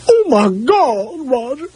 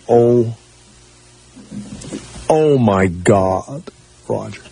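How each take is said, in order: First: It is said imitating his mom's voice. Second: It is said in his own voice.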